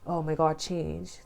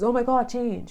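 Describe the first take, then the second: First: It sounds daunted and dreading. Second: It sounds full of childlike wonder.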